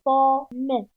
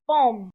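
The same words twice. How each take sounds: First: "Pomme" coupé en pom-me, e final prononcé; syllabes frappées. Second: Said in the usual way. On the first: Shown as a demonstration. ("Pomme" scandé en deux temps) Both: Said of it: "Frappons les syllabes du mot pomme".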